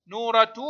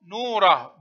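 First: نورة as "nuuratu", t plus u; sounded ta. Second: نوره as "nuurah", ending on h; pausal ha. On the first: Teacher showing pupils connected reading, نورة ending "-tu". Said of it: "تنطق تاء في الحركة". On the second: Teacher showing pupils the stop, نوره ending in h. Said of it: "وهاء عند الوقف". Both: Shown as a demonstration.

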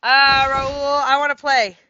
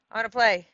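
First: Louder, raised call across to a player. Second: Said in the usual way. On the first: Real, not acted. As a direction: call out that you want to play. Calling out to a player.

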